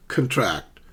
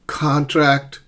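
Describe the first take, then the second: First: "contract" as con-TRACT, falling; weak first syllable, land on TRACT in "contract"; second-syllable stress. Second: "Contract" as CON-tract, high on CON; first-syllable stress. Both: Shown as a demonstration. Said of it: "notice the shift in the stress".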